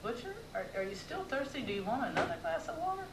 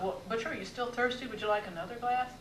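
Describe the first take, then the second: First: Quick, disbelieving question, pitched higher; incredulous. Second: Said in the usual way. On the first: Retold or imitated. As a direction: ask it as if you can't believe it. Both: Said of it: "incredulously, I asked".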